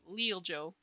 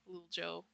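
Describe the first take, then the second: First: The name is said in a normal voice. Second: The name is said in a put-on voice.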